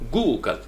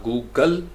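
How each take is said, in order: First: Google as GOO-gul, falling on a light gul; long GOO, light ending on Google; stress on first syllable. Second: Google wrongly as goo-GAL; heavy ending on Google, goo-GAL; stress on second syllable. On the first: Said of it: "ये जो आपका शुरू में आएगा". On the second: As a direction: drag and weight the GAL of Google. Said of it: "Google नहीं". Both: Shown as a demonstration.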